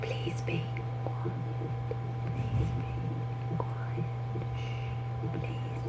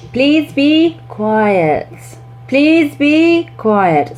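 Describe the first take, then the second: First: Very slow whispered please be quiet; teacher fading to a whisper to settle the room. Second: Put-on teacher raising the voice to quieten kids; raised voice. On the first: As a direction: sink down to a hush. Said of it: "you bring it down so it's like". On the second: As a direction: stretch it out loudly over the class. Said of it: "you can really raise your voice". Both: Shown as a demonstration.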